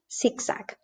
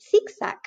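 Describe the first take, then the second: First: Zigzag with S for Z, softer; Latin American S. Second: Zigzag with TH for Z; Spain's TH. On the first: Teacher showing Latin American S in zigzag. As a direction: say each Z of zigzag as S, quietly. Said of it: "in Latin America, you would have". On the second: Teacher showing Spain's TH in zigzag. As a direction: say each Z of zigzag as TH. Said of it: "And in Latin America". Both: Shown as a demonstration.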